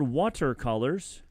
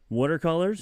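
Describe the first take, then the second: First: It is said with crisp, careful consonants. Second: It is said in a Philly accent.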